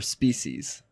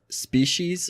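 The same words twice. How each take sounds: First: The middle consonant is an 's' sound. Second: The middle consonant is a 'sh' sound.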